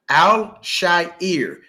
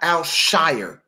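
First: The ending does not sound like 'shire'. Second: The ending sounds like the word 'shire'. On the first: The speaker calls it right. "that is his name" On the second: The speaker calls it wrong. "not Al-Shaair, okay? It's not S-H-I-R-E"

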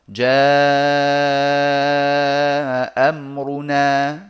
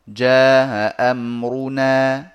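First: The vowel before the hamza is lengthened. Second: The vowel before the hamza is kept short. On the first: "مع المد" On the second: "ثم القصر"

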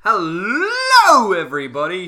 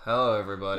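First: It is said with excessive, over-the-top energy. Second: It is said with low, subdued energy.

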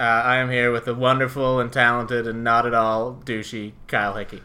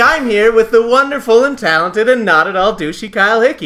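First: It sounds grudging and insincere. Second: It sounds warm and sincere.

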